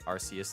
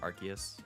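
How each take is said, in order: First: The name is said the Japanese way. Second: The name is said the English way. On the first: "Japanese pronunciation is what people consider the way to say it" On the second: "instead of"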